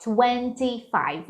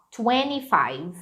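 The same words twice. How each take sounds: First: "twenty-five" with the T said clearly, slowly; full twenty-five. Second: "twenty-five" said "twenny-five" with the T dropped; American dropped T. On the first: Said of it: "Então, fica twenty-five". ("twenty-five" com o T pronunciado) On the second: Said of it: "muito comum eles falarem assim". ("twenty-five" sem o som do T, como "twenny-five") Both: Shown as a demonstration.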